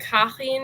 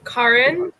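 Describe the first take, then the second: First: The name is said with a German pronunciation. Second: The name is said with an American pronunciation. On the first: "it's German, so it's like" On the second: "I just do the American thing"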